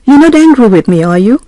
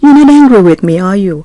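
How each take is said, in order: First: Tune rises on "are you?" like a real question; rising tag, unsure. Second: Tune falls on "are you?" with no rise at the end; falling tag, seeking confirmation. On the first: Teacher showing a real question, rising on "are you?". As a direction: ask "are you?" going up at the end, truly unsure. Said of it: "แสดงว่าเราไม่แน่ใจว่าเขาโกรธเราหรือเปล่า". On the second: Teacher showing a confident tag, falling on "are you?". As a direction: let "are you?" drop down, already fairly sure. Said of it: "แสดงว่าเราคงพอจะทราบว่าเขาคงไม่โกรธ". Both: Shown as a demonstration.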